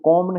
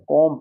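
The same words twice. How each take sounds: First: The word ends with a sounded b. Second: The word ends in m, b silent. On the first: The speaker calls it wrong. "कॉम नहीं पढ़ना है" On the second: The speaker calls it right. "बी silent"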